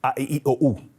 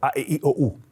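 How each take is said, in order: The two takes are said the same way.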